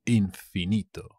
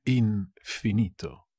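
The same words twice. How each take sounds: First: Said in the usual way. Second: "Infinito" drawn out with a split after "In"; slow, broken up. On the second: Shown as a demonstration. Teacher repeating a word for learners, slow and broken up. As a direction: say "Infinito" slowly, in parts.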